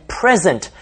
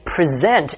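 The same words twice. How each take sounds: First: "present" stressed on the first syllable, PRES-ent; noun stress. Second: "present" stressed on the second syllable, pre-SENT; verb stress. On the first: Teacher lists heteronyms for learners, "present" with first-syllable stress. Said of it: "put the stress on the first syllable". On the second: Teacher lists heteronyms for learners, "present" with second-syllable stress. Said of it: "place the stress on the second syllable". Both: Shown as a demonstration.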